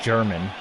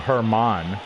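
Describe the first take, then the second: First: The name begins with a hard G sound. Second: The name begins with an H sound. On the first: The speaker calls it wrong. "not German" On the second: The speaker calls it right. "So Herman"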